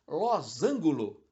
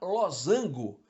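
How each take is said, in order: First: The word ends in angulo. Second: The word ends in ango. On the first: The speaker calls it wrong. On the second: The speaker calls it right.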